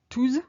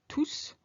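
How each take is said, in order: First: The word ends with a buzzing Z sound. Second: The word ends with a hissing S sound. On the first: "With a soft Z sound" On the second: "a hard S"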